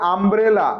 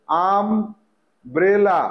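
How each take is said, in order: First: Said in the usual way. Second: আমব্রেলা very slowly, আম, long pause, ব্রেলা; broken into syllables. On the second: Shown as a demonstration. Teacher writing the word in Bengali for pupils, slow syllables. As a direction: stretch and split আমব্রেলা for spelling. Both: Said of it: "বানানটা বাংলায় আগে লিখে নেব".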